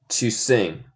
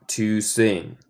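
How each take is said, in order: Both takes have the same delivery.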